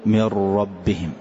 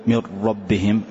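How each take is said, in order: First: "من ربهم" with the doubled ر made audible; "من ربهم" with the ر trilled as two letters. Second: "من ربهم" with the ر said once, no repeat; "من ربهم" بلا تكرار للراء، نطق خاطئ; wrong, no trill. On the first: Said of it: "إظهار التكرار بمقدار حرفين". ("من ربهم" بإظهار تكرار الراء بمقدار حرفين) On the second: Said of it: "لا، نقول ما في تكرار". (نطق "من ربهم" دون إظهار التكرار) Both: Shown as a demonstration.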